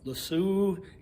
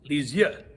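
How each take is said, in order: First: The name is flattened into an English-sounding 'Le Sue'. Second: The name is said with French vowels and sounds. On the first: The speaker calls it wrong. "I would butcher Saint Therese de Lisieux's name because I'd be like Le Sue" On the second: The speaker calls it right. "it's Lisieux"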